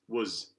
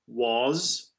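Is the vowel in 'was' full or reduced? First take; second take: reduced; full. First: The vowel is reduced to a schwa. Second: The vowel is full and clear.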